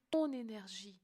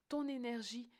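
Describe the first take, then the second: No difference in how they are said.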